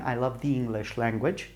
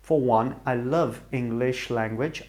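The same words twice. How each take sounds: First: Slight stress on "the" in "the English language"; corrected phrasing. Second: Said in the usual way. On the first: Real, not acted. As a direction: fix it, leaning a little on "the". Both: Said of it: "There I did the mistake again".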